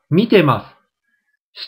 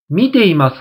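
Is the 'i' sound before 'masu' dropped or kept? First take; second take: dropped; kept. First: The 'i' sound before 'masu' is dropped. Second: The 'i' sound before 'masu' is kept.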